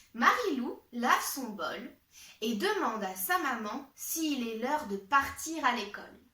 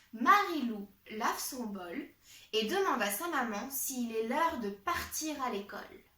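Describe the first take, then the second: Both takes have the same delivery.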